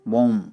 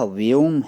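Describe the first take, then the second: First: It is pronounced like 'boom', Bengali style. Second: It is pronounced 'vyom', standard Hindi style.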